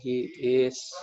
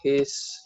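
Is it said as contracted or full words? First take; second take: full; contracted. First: Both words are said fully and separately. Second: The two words are merged into one syllable. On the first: "biasanya bilang he is" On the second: "Ini cuma bilang his gitu"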